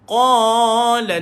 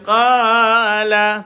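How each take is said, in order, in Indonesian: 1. Qa diucapkan dengan mulut netral. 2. Qa diucapkan dengan bibir melebar, seperti tersenyum. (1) "mulut kita biasa tu tuan-tuan" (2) "jangan baca qa sambil senyum lah tuan-tuan"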